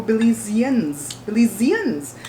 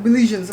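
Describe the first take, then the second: First: "Belizeans" with a z, bih-LEE-zee-uns; four clear syllables in "Belizeans"; correcting Belizeans. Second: "Belizeans" with zh, bih-LEE-zhuns; three-syllable "Belizeans"; imitated mispronunciation. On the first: Retold or imitated. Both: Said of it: "No, we're not".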